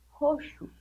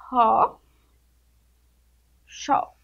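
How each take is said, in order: First: Said in the usual way. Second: Ro then xó, each syllable apart with a pause; separated syllables. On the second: Shown as a demonstration. Teacher showing pupils how to read roxo, syllable by syllable. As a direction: break the word into its pieces. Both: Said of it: "É assim que vocês vão fazer".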